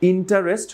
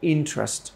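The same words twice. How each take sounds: First: The middle vowel is pronounced, giving three syllables. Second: The middle vowel is dropped, giving two syllables.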